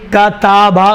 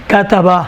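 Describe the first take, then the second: First: کتابہ said with a long aa in the middle, ka-taa-ba; wrong pronunciation. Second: کتبہ said short and quick, ka-ta-ba with no long vowel; correct pronunciation. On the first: Teacher showing students the wrong reading of کتابہ, long middle aa. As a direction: stretch the middle vowel of کتابہ into taa, the mistaken way. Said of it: "غلط ہے". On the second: Teacher giving students the correct reading of کتبہ, all vowels short. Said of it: "کتابہ غلط ہے". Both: Shown as a demonstration.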